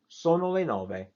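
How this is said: The pitch stays level throughout. It is a statement of fact. "read that sort of straight through ... No change"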